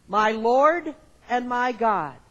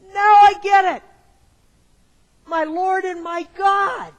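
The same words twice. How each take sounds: First: Said in the usual way. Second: High, loud, bursting shout of sudden understanding; loud, high thrill of discovery; excited realization. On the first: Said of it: "read it with me". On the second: Retold or imitated. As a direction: cry it out like it finally clicked. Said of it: "with a certain excitement and pitch in his voice".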